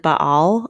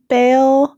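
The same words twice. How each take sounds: First: Baal said as two syllables, ba-al, with an open ah and stress on the first. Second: Baal said as one syllable rhyming with bail, voiced higher; Southern Baal. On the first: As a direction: split Baal into ba-al, open ah sounds. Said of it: "repronounce the A, like, Baal". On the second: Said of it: "Southerners seem to pronounce it". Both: Shown as a demonstration.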